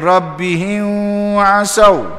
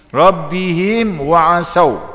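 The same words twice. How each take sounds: First: The m sound is not pronounced clearly. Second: The m sound is pronounced clearly. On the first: The speaker calls it wrong. "salah. tak betul dari segi hukum tajwid" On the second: The speaker calls it right. "Izhar syafawi"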